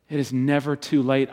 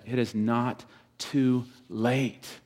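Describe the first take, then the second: First: Said in the usual way. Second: It is not too late, each word slowed and weighed; drawn-out pastoral plea; slow emphasis. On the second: Acted. Preacher pleading with the fathers.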